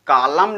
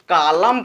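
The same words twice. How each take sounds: First: कॉलम with an added n after the m; final N sounded. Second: कॉलम ending on m, no n; silent final N. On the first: Teacher showing the misreading, n sounded after कॉलम. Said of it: "कॉलम नहीं पढ़ेंगे". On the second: Teacher showing the right reading, silent n in कॉलम. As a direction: drop the n, close कॉलम on m. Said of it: "इसको केवल कॉलम पढ़ेंगे". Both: Shown as a demonstration.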